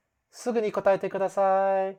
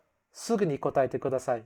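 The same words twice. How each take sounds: First: Softer inflection. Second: "すぐに答えてください" said fast, curt and falling; bossy command. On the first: Teacher to class, the softer polite version. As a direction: ask kindly, lifting the tone. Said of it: "still sound softer by changing the emotional inflection". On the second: Teacher to class, the blunt rude version. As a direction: snap the request out like an order. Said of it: "So instead of". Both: Shown as a demonstration.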